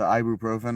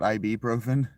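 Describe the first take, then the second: First: The start is not spelled out as letters. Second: The start sounds like the letters I and B. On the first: The speaker calls it right. "said correctly" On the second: The speaker calls it wrong. "not a capital I and a capital B"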